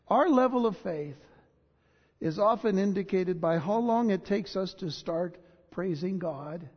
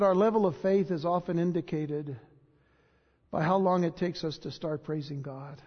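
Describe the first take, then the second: First: It is read slowly. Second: It is read at a normal speed.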